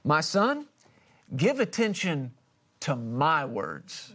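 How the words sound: The word 'my' is said with strong emphasis.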